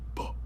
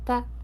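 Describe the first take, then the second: First: The voice sounds dark and low. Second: The voice sounds bright and high. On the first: "really low larynx, a low Adam's apple... really masculine" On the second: "it's gonna go from dark to bright"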